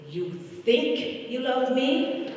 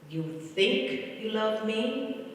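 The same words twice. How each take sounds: First: High, slow, drawn-out playful question; uncle's teasing question. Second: Higher, slow, stretched playful question; uncle's teasing question. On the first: Grieving niece voicing her uncle's slow teasing question. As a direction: tease her gently, stretching each word. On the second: Niece repeating her uncle's slow teasing question again. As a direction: ask it slowly with a light tease. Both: Retold or imitated. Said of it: "And he would say".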